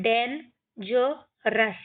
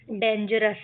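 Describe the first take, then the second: First: डेंजरस split into डेन, ज, रस; syllable by syllable. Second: Said in the usual way. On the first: Shown as a demonstration. Teacher shows how we will read, डेंजरस in separate syllables. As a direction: pause between the parts of डेंजरस. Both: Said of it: "इनको हम पढ़ेंगे".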